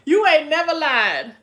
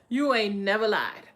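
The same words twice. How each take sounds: First: Higher and much louder, punching YOU; You ain't never lied, called out loud; emphatic agreement. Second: Said in the usual way. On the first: Real, not acted. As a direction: shout out the agreement, laughing still.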